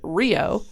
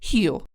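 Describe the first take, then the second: First: The word begins with an R sound. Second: The word begins with an H sound. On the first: The speaker calls it wrong. "so you'd pronounce it Rio" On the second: The speaker calls it right. "but it's pronounced Rio"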